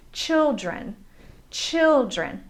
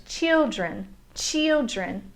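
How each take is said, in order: First: Put-on "children" as CHIL-dren; first vowel of "children" as in "chill"; short I. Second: Put-on "children" as CHEEL-dren; first vowel of "children" as in "cheese"; learner's mispronunciation. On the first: Shown as a demonstration. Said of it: "with a short I vowel sound". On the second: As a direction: imitate learners saying "children" with a long ee. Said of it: "also mispronounce the word children".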